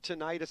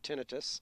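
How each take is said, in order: First: The ending sounds like 'eye-tis'. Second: The ending sounds like 'ih-tus'. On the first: "Some people call it tinnitus. I think itis sounds like an infection" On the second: "I call it tinnitus"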